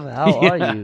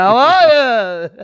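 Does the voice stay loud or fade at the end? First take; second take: fades; loud. First: The voice fades softer at the end. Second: The voice stays loud to the end.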